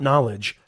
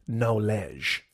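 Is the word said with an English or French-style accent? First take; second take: English; French-style. First: It is said with a plain English accent. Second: It is said with a French-style accent. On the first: "Not knowledge" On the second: "That's French for knowledge"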